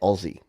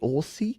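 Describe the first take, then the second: First: The middle consonant is a buzzing Z sound. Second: The middle consonant is a hissing S sound. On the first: The speaker calls it right. "if you want to say it like Australians say it, you say Aussie. So pretend it's O Z Z Y" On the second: The speaker calls it wrong. "I know it looks like it should be Aussie"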